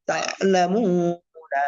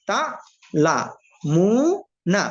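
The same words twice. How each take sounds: First: তাআলামুনা as one word, long মু; joined reading. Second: তা, লা, মু, না with pauses between; one syllable at a time. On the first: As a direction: flow through তাআলামুনা, stretching মু. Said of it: "চালু করে দিলে reading হয়ে যায়". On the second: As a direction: separate each of তা লা মু না cleanly. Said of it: "একটা একটা করে বলবেন". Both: Shown as a demonstration.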